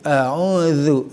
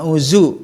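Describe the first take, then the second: First: The middle consonant is a soft th. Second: The middle consonant is a plain z. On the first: The speaker calls it right. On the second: The speaker calls it wrong.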